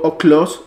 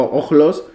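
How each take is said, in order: First: Oklos with a hard k before the l; k pronunciation. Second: Ojlos with a Spanish j before the l; j pronunciation. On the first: Teacher offers students a Greek word, k pronunciation. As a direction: say oklos with a crisp k sound. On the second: Teacher offers students the alternative reading, j pronunciation. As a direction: say ojlos with a throat fricative, not k. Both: Shown as a demonstration. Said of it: "oklos o ojlos".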